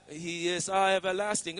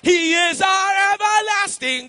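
First: It is said quietly and subdued. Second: It is shouted out loud. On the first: The praise is held back timidly. The speaker calls it wrong. "Don't be silent and say" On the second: The praise is declared boldly in faith. The speaker calls it right. "Shout it out loud"

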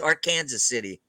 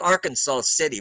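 First: Arkansas is said unlike the state name. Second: Arkansas is said like the state name. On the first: This is how the town's name is actually said. The speaker calls it right. "but it's Arkansas City" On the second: This is how the spelling suggests it is said. The speaker calls it wrong. "It's spelled like Arkansas City"

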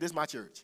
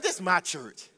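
First: It is said plainly, without attitude. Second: It is said with sassy attitude.

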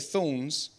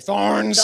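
First: It is said in an English accent. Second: It is said in an American accent.

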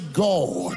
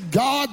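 First: The word is said in a pompous, put-on voice. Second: The word is said plainly, in a normal voice. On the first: The speaker is showing off religious superiority. "they say God" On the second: This is the ordinary, humble way of speaking. "They don't say God"

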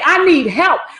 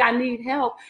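First: It is said loudly, like a cry. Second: It is said weakly and without force.

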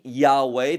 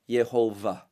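First: The name is said with two syllables, ya-weh. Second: The name is said with three syllables, ye-ho-vah. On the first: The speaker calls it wrong. "cannot be Yahweh. That's not the proper way to enunciate this term" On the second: The speaker calls it right. "best enunciated with the phrase Yehovah"

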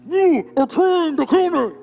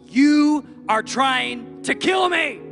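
First: It sounds muffled, as if through a mask. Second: It is screamed clearly in anger.

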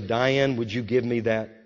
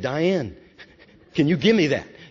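First: It is said calmly, as a simple request. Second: It is said with more intensity and force.

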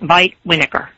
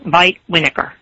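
First: The W and V sounds are swapped around. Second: The same.

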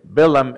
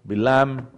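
First: The name is pronounced the English way. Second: The name is pronounced the Hebrew way. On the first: "Bilaam is English" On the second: "Bilaam is Hebrew"

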